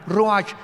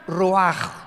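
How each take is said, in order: First: The word ends in a 'ch' sound. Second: The word ends in a throaty, guttural rasp. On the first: The speaker calls it wrong. "como suena con R de Raúl, C H al final" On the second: The speaker calls it right. "se pronuncia ruach"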